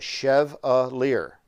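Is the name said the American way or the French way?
American. The name is said with an American pronunciation. This is how the family says the name. "ancestors Americanized it years ago. So this is how you spell my last name, but you say it Chevalier"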